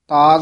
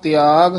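First: The word is said as 'taag'. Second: The word is said as 'tiaag'. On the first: The speaker calls it wrong. "ਤਾਗ ਨਹੀਂ ਕਹਿਣਾ" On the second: The speaker calls it right. "ਆਪ ਤਿਆਗ ਉਚਾਰਨ ਕਰਨਾ"

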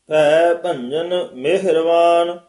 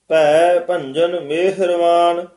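The two takes are said the same way.

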